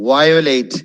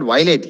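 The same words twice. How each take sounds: First: The stress is on the first syllable. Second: The stress is not on the first syllable. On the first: The speaker calls it right. "അതിന് മറ്റേ first syllable importance കൊടുക്കണം" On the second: The speaker calls it wrong. "is not violate"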